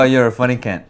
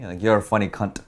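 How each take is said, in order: First: The final T is soft, barely pronounced. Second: The final T is hard and clearly pronounced. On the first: It is a term of endearment. The speaker calls it right. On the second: It sounds offensive. The speaker calls it wrong.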